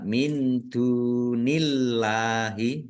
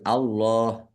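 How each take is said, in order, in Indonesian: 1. Huruf L pada "Allah" terdengar ringan dan tipis. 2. Huruf L pada "Allah" terdengar berat dan tebal. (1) "dibaca tipis" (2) "Allahnya dibaca tebal"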